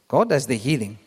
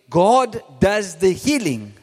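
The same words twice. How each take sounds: First: It is said at normal speed. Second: It is said very slowly.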